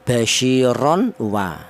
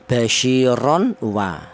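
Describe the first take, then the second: First: The n is pronounced clearly before the w. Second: The same.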